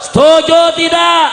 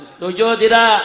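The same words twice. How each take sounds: First: High, booming demand for an answer; rallying shout. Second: Loud question at normal pitch; raised call. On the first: Preacher demands agreement on taxes, rallying shout. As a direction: shout it to rouse the whole crowd. Preacher repeats louder to rouse crowd. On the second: Preacher checks the crowd agrees, raised call. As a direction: call out for agreement, not yet shouting. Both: Real, not acted.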